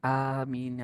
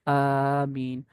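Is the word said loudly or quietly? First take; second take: quietly; loudly. First: It is said quietly, under the breath. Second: It is said aloud, audibly.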